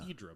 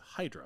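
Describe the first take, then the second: First: The name is pronounced the Greek way. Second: The name is pronounced the English way. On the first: This is how locals say it. "The Greeks would pronounce it Hydra" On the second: This is how English speakers say it. "but we pronounce it Hydra"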